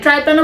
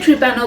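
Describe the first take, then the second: First: The first syllable sounds like 'try'. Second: The first syllable sounds like 'tree'. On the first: "ট্রাইপ্যানো বলতে পারেন" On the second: "ট্রিপ্যানো বলতে পারেন"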